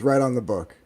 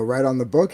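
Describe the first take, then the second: First: Falling tune on "Right on the book.", stress on right, dropping at book; flat confirmation. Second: Rising tune on "Right on the book?", voice lifting at book; incredulous kid checking, ending up high; surprised question. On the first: Grandfather calmly confirms the order to the child, falling statement. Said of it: "He goes". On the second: Child doubting grandfather's order, asks with a rising question. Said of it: "I go". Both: Retold or imitated.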